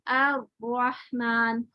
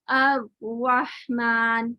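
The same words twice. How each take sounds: No difference in how they are said.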